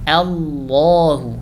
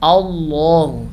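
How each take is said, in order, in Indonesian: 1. Hamzah pembuka itu tipis dan ringan. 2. Hamzah pembuka itu tebal dan gelap. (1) "tapi dibaca Allahu" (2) "tidak dibaca Allahu"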